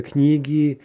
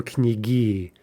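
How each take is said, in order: First: "knigi" stressed on the first i, KNI-gi; stem stress on knigi. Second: "knigi" stressed on the final i, kni-GI; end stress on knigi. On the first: Teacher showing the regular plural, "knigi" stressed KNI-gi. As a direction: hit the first syllable of "knigi", leaving the ending light. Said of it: "stress is gonna remain on the stem". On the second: Teacher showing an unlikely plural, "knigi" stressed kni-GI. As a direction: slowly land "knigi" on its last syllable. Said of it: "would be very unlikely". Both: Shown as a demonstration.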